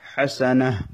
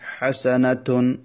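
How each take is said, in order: First: The word ends with a soft h sound. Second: The word ends with a full -tun syllable. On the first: The reading stops at this word. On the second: The reading continues past this word.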